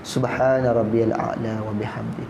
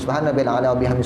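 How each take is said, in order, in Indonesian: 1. Frasa ini dibaca dengan tempo sedang dan merata. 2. Frasa ini dibaca dengan cepat dan tergesa-gesa. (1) "dalam kadar yang sederhana" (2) "Imam kena bangkit cepat-cepat"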